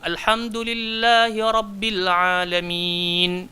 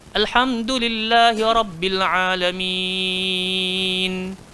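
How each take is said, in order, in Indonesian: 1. Vokal panjang terakhir dibaca dua ketukan. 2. Vokal panjang terakhir dibaca enam ketukan. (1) "Boleh dua" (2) "dia boleh enam"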